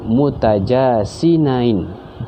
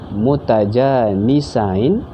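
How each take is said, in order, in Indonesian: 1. Suku kata tengahnya terdengar seperti 'jasin'. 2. Suku kata tengahnya terdengar seperti 'janis'.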